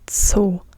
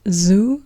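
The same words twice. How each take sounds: First: It starts with a sharp ts sound. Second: It starts with a buzzing z sound. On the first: The speaker calls it right. "but Zoo" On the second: The speaker calls it wrong. "So it's not zoo"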